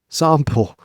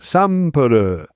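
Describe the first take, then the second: First: It is said in a plain English accent. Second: It is said in a Japanese accent.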